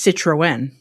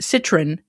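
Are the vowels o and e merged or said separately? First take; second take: separate; merged. First: The o and e are said as separate vowels. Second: The o and e merge into one vowel. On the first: "you pronounce it di- separately from the vowel that comes before it" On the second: "instead of Citroen, Citron"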